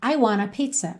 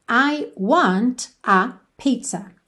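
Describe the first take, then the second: First: It is said fast, words run together. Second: It is said carefully, each word separate.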